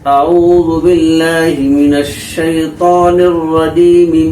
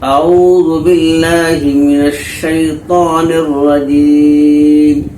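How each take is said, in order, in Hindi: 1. आखिरी स्वर बना रहता है और अगले वाक्यांश में जुड़ जाता है। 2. आखिरी शब्द व्यंजन पर रुक जाता है, कोई स्वर नहीं। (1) "जब यहाँ पे वक्फ नहीं करेंगे, सांस नहीं तोड़ेंगे" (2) "अगर यहाँ पर वक्फ करेंगे तो मीम के नीचे जो ज़ेर है ये ज़ेर की हरकत जल्द से बदल जाएगी"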